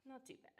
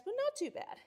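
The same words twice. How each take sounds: First: Much softer not too bad; quiet repeat, said to herself; soft echo. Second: Sudden high, breezy not too bad; high and breezy, shrugging it off; high light brush-off. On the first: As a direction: murmur it to yourself. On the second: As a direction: toss it off lightly. Shrugging off a pipe burst. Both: Real, not acted.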